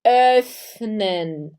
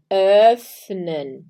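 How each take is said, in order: First: "öffnen" with rounded lips, ö as E in an O mouth; German öffnen. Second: "öffnen" again, louder, rounded ö; German öffnen. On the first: Teacher drilling the word öffnen. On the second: Teacher repeating öffnen for the class. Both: Shown as a demonstration. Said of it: "a gente tem aí".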